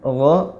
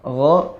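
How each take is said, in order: The two takes are said the same way.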